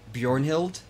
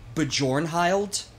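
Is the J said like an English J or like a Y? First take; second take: Y sound; English J. First: The J is said as a Y sound. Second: The J is said as an English J. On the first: The speaker calls it right. "instead of Bjornhild" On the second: The speaker calls it wrong. "pronounces the J as an English J"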